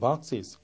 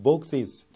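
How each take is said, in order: First: The vowel sounds close to 'ah'. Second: The vowel sounds close to 'oh'. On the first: "아에 가깝게 들리는 그 미국 발음" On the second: "오 발음이 정말 정석대로 오에 가깝게 들리는 것"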